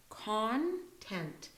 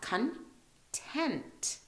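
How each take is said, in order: First: The stress is on the first syllable. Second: The stress is on the second syllable.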